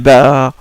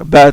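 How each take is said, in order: First: The vowel is drawn out long. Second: The vowel is short and clipped.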